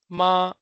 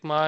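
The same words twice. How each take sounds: First: MA as a Chinese word, high level tone, held; Mandarin ma. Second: "ma" said short, like the French word for my; quick French possessive "ma"; French-sounding ma. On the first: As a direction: hold "ma" steady and high, Mandarin first tone. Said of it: "it means mother". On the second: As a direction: say "ma" untoned at usual pitch. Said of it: "which sounds like ma". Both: Shown as a demonstration.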